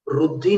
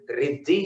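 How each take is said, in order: First: The vowel after r sounds like u. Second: The vowel after r sounds like i. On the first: The speaker calls it wrong. "रुद्धि नहीं है" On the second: The speaker calls it right. "रिद्धि ही उसका शुद्ध उच्चारण"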